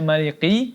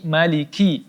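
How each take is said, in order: First: The k sound is heavy and thickened. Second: The k sound is light and thin. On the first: The speaker calls it wrong. "tidak dibaca maliki" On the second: The speaker calls it right. "maliki tipis"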